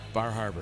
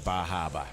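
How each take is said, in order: First: The R sounds are clearly pronounced. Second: The R sounds are dropped entirely.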